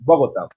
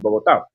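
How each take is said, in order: First: The name is said with an American English accent. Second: The name is said with a local Spanish accent. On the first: The speaker calls it wrong. "U S people sometimes pr- uh, pronounce Bogota" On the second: The speaker calls it right. "and it's Bogota"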